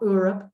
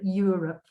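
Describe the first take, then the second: First: The word starts with a plain vowel sound. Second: The word starts with a 'y' sound. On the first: The speaker calls it wrong. "not Europe" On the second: The speaker calls it right. "like a y, like YouTube"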